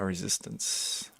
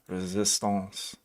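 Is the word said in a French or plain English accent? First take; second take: plain English; French. First: It is said in a plain English accent. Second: It is said in a put-on French accent.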